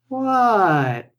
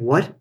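First: It sounds playful and fun. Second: It sounds annoyed and uninterested.

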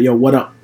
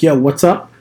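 First: The s sound after what is dropped. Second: The s sound after what is pronounced. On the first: "they cut the S out" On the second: "people stopped using what's up"

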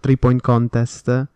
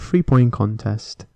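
First: It is said with an Italian accent. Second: It is said with an English accent.

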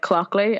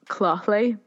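First: The middle consonant is a hard k sound. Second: The middle consonant is a throaty ch sound. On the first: This is how most people say the name. "But people just say like clockly, and I'm happy with that" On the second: This is the name's own pronunciation. "It's pronounced like clothly. Like, you know, like a lock"

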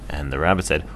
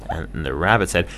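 The two takes are said the same way.

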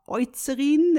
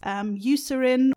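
First: The name is pronounced the German way. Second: The name is pronounced the English way.

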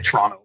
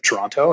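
First: The second T is dropped entirely. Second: The second T is clearly pronounced. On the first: "Like the second T doesn't exist" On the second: "I still pronounce the T on the end of Toronto"

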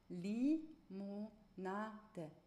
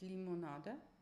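First: The vowels are full, with strong lip movement. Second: The vowels are weak, with little lip movement. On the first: The speaker calls it right. "mit ganz viel Vokalen" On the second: The speaker calls it wrong.

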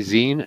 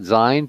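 First: The vowel sounds like the end of 'magazine'. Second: The vowel sounds like the vowel in 'line'. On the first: The speaker calls it right. "I say zine, because it's a little magazine" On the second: The speaker calls it wrong. "not zine"

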